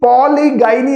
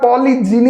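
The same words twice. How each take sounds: First: പോളിഗൈനി said with a hard g, "poli-gai-ni"; the mistaken പോളിഗൈനി, g as in go and "gai"; wrong pronunciation. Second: The right പോളിജിനി, j as in jam, short i; correct pronunciation. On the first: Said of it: "പോളിഗൈനി അല്ല". (പോളിഗൈനി എന്ന തെറ്റായ ഉച്ചാരണം, "ഗൈ" എന്ന്) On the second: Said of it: "പോളിജിനി എന്നാണ് ഇതിന്റെ". (പോളിജിനി എന്ന ശരിയായ ഉച്ചാരണം, "ജി" എന്ന്) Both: Shown as a demonstration.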